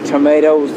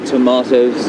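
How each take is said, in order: First: It is said the American way. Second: It is said the speaker's local way. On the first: This is how Americans say it. "Americans say" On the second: This is how the speaker's own people say it. "we say"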